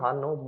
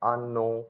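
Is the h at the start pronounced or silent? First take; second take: pronounced; silent. First: The word starts with an audible h sound. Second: The word starts with a vowel, h silent. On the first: "English में हम पढ़ेंगे हाँ नो" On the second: "Italian के अंदर हम इस, इसको पढ़ेंगे आनो। मतलब जो एच रहता है वो रहता है साइलेंट"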